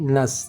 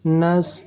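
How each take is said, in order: First: The s sound is a thin hiss. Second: The s sound is heavy and emphatic. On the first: The speaker calls it right. "sama-sama desis anginnya tipis" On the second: The speaker calls it wrong. "Sin mati dibaca seperti huruf sad"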